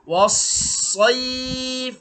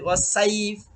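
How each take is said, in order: First: The vowel sounds rounded and dark, like 'oi'. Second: The vowel sounds open and bright, like 'ai'. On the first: The speaker calls it right. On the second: The speaker calls it wrong.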